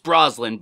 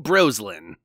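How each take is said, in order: First: The name is said plainly, with no pun. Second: The name is bent into a joking pun. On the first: It is the hotel's real name. The speaker calls it right. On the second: It makes a joke about the hotel. The speaker calls it wrong.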